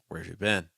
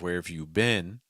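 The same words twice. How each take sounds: First: Consonants are weak and the vowels flow together. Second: Each word is pronounced fully with clear consonants. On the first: "it's very common to get that reduction" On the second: "instead of where have you been, which is also is fine"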